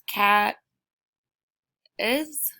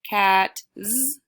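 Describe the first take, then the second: First: The word ends with an extra iz syllable. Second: The word ends with a buzzing z sound. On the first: "No, that doesn't sound right"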